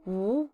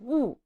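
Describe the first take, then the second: First: The pitch rises from middle to high. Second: The pitch falls sharply from high. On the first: "second tone" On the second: "and fourth tone"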